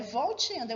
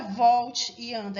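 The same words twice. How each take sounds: First: "volte e anda" run together without a break; one single word. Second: "volte e anda" drawn out with a break before "anda"; two separate words. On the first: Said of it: "é uma palavra só". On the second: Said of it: "não é volte e anda". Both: Shown as a demonstration.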